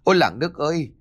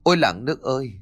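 First: High-pitched cry for help; panicked roar. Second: Plaintive, put-upon call to neighbours; brazen mock lament. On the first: Attacked daughter-in-law calling the villagers, panicked yell. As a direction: cry out to the whole village in alarm. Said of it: "liền gầm lên". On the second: Sly daughter-in-law playing victim before villagers, feigned lament. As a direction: appeal to the crowd as the wronged victim. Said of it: "thì mặt dày thay đổi". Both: A narrator's reading.

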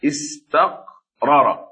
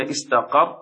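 First: استقرر slowly split, both r sounds separate; uncontracted form. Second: استقر with the two r sounds merged into one doubled ر; contracted form. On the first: Teacher showing a word's original form, استقرر slowly split. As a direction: pull استقرر apart, sounding each ر. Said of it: "فأصله". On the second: Teacher showing the merged form, استقر with doubled ر. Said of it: "نقلنا الحركة إلى الساكن الذي قبله". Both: Shown as a demonstration.

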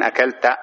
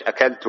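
First: "أكلت" ending in a short -a, akalta; colloquial wrong ending. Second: "أكلت" ending in -u, akaltu; correct first-person ending. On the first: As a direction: say "أكلت" with fatha on the final ta. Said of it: "خلافًا للسودانيين، يقولون". ("أكلت" بفتح التاء) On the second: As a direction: say "أكلت" with damma on the final ta. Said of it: "وإنما تقول إيش؟". ("أكلت" بضم التاء) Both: Shown as a demonstration.

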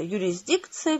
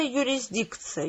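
First: Юрисдикция slow with rising end; rising trial word. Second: Юрисдикция slow, quieter, falling; slow soft falling. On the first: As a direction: test юрисдикция with a questioning rise. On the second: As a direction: savour юрисдикция slowly, dropping. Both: A narrator's reading. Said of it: "несколько раз повторил".

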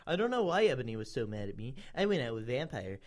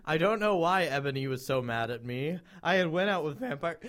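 First: Quicker, toned-down character reading; understated fanfic recital; matter-of-fact reread. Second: Animated, deliberate character reading; emphatic fanfic recital; dramatic read-aloud. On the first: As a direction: run through the line again without drama. Rereads the passage after interrupting. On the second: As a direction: read it with full storybook drama. First take of character's narration. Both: A narrator's reading.

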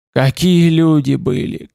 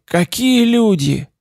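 First: Slow, hoarse and full of pain. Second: Higher, slower hoarse lament; hoarse pained cry. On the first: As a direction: rasp it out in grief. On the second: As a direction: let the pain break upward. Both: A narrator's reading. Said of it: "Голос его был хриплый, полный боли".

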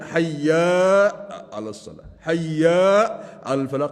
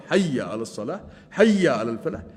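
First: Long held "حي", then drop away; lengthened yaa. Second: Said in the usual way. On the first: Shown as a demonstration. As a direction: stretch "حي" into "hayyaaa" each time. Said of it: "يمد الياء". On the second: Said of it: "كذلك الشأن بحي على الصلاة".

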